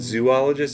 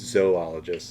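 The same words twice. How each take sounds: First: The first syllable is a long 'zoo' sound. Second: The first syllable is 'zoh', then 'ologist'. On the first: The speaker calls it wrong. "it's not zoologist" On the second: The speaker calls it right. "You pronounce the first two, and then you let the third letter bleed into ologist"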